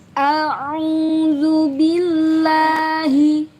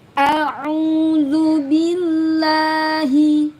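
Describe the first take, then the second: No difference in how they are said.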